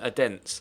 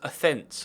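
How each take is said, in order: First: The middle consonant is a hard d sound. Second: The middle consonant is a soft th sound. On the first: The speaker calls it wrong. "rather than Adents" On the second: The speaker calls it right. "it's pronounced Athens"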